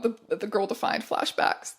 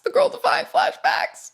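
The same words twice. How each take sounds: First: Said in the usual way. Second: Pitched way up, mock horror; high squeaky voice. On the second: Repeated line, pitched high.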